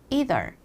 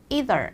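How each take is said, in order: The two takes are said the same way.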